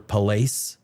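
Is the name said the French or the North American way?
North American. It is said with a North American pronunciation. "in North American speak"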